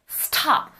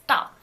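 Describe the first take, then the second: First: The T is said with a puff of air. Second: The T is said without a puff of air. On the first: The speaker calls it wrong. "You don't say stop" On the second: The speaker calls it right. "You say stop"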